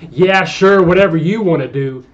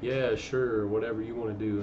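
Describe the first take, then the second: First: It is said in a tense, irritated tone. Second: It is said in a relaxed, easygoing tone. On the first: The reader thinks the writer is upset. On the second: The writer is happy to go along.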